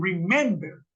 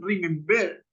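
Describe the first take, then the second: First: Remember stressed on the middle syllable, re-MEM-ber; correct middle stress. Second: Remember stressed on the last syllable, remem-BER; wrong stress demo. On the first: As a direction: put the accent on the MEM of remember. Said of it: "sino que está en". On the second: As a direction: show remember wrongly accented on the end. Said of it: "La acentuación no está en ver". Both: Shown as a demonstration.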